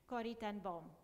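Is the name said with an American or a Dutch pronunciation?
Dutch. The name is said with Dutch pronunciation.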